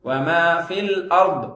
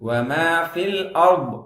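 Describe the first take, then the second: The two takes are said the same way.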